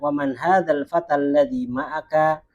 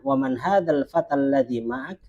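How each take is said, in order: First: The last word ends with a final vowel. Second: The last word ends on a bare consonant. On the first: This is the form used when reading aloud. "Kalau kita membaca" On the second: This is the form used in real conversation. "tapi kalau kita percakapan"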